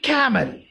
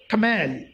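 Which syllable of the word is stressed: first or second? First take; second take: first; second. First: The stress is on the first syllable. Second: The stress is on the second syllable. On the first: The speaker calls it right. "You should say camel. C A must be stressed" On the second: The speaker calls it wrong. "you should not say camel"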